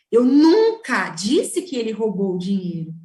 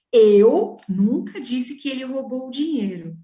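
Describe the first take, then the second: First: "nunca" punched, the rest plain; emphatic denial on "nunca"; stress on NUNCA. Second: "Eu" punched at the start of the sentence; stress on EU. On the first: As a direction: lean hard on "nunca". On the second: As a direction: hit the word "Eu" hard, the rest plain. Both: Shown as a demonstration. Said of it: "se eu mudar a ênfase ao ler essa frase".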